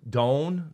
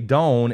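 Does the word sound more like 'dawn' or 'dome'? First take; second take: dawn; dome. First: The vowel is an open aw sound. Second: The vowel sounds close to an o sound. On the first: This is how other people say it. "they say dawn for like the dawn, the morning" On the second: This is the speaker's own way of saying it. "I say dawn, and they thought I was saying dome"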